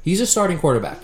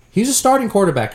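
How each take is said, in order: First: A leaned on, softer take; stress on a. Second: Starting punched high, falling after; stress on starting. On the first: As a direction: lean on the word a, not starting. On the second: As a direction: lean on the word starting, pitch up. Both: Shown as a demonstration.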